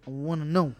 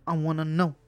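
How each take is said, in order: Both takes have the same delivery.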